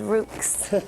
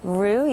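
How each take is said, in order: First: It ends with a pronounced 'ks' sound. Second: It ends in a plain vowel sound. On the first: The speaker calls it wrong. "Everybody here says Rooks" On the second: The speaker calls it right. "you actually said it right"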